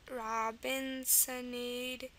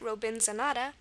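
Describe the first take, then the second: First: It is said the English way, ending -ade. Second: It is said the German way, ending -ada.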